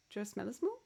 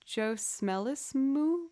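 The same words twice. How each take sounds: First: "Smellismoo" said again softly, quick rising question; quiet repeat. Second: "Smellismoo" drawn out slowly, rising like a question; puzzled slow reading. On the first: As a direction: murmur "Joe Smellismoo" back to yourself. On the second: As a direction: sound out "Joe Smellismoo" slowly, unsure. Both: Real, not acted.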